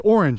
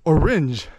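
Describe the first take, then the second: First: The word is pronounced the ordinary way. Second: The word is twisted to rhyme with syringes. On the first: "so you don't say orange" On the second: "you say orange, oranges, syringes, bridges, and you kind of twist and turn the words"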